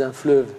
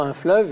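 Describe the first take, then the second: First: "fleuve" in the regional Lyonnais pronunciation; accent lyonnais. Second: Said in the usual way. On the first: Shown as a demonstration. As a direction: give "fleuve" its Lyonnais vowel. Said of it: "ils disent un fleuve". (« fleuve » prononcé à la lyonnaise) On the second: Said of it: "ils disent pas".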